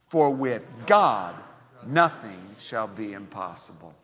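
The word "God" carries the strongest stress. "emphasize the name God"

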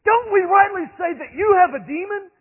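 It is shouted angrily, in a loud, heated voice. The speakers are furious at being shown their error. The speaker calls it right.

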